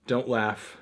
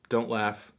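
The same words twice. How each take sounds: The two takes are said the same way.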